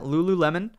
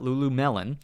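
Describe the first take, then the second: First: The name ends with the sound 'lemon'. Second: The name ends with the sound 'melon'. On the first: The speaker calls it right. "I'll say it correctly this time" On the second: The speaker calls it wrong. "not Lulumelon"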